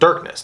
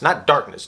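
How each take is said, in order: First: The first vowel sounds like the one in 'fur'. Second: The first vowel sounds like the one in 'car'. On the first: It is a newly coined word. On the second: It is the ordinary existing word.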